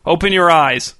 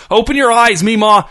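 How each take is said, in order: First: Said in the usual way. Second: High, loud, furious order; screamed. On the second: A narrator's reading. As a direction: yell it like a switch just flipped. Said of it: "he screamed".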